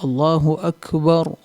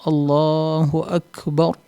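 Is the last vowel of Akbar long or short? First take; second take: short; short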